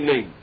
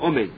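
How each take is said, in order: First: The first vowel is dropped, sounding like 'men'. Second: The first vowel is fully pronounced as 'o'. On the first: The word is cut short and swallowed. The speaker calls it wrong. "You don't say oh. You don't have the commas under the Aleph" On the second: The word is said completely. The speaker calls it right. "You have to say with a commas under the Aleph"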